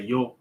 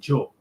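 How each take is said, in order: First: The word begins with a Y sound. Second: The word begins with a J sound. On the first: "Some people might say yo" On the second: "like a J sound"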